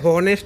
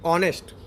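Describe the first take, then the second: First: The word begins with an h sound. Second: The word begins directly with a vowel sound. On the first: The speaker calls it wrong. "આપણે હોનેસ્ટ એમ નથી બોલતા" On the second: The speaker calls it right. "આપણે શું બોલીએ? ઓનેસ્ટ"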